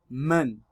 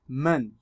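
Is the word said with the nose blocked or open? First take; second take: open; open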